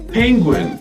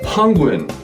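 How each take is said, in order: First: It is said in a plain English way. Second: It is said with Chinese-style ng sounds.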